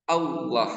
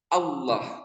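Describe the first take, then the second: No difference in how they are said.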